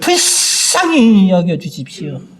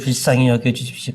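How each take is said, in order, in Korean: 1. 큰 소리로 간절하고 절실하게 말합니다. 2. 낮고 가라앉은 목소리로 말합니다. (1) "큰 소리로 뭐예요? 간절하게 진실되게" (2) "목소리가 다 이렇게 저 밑에"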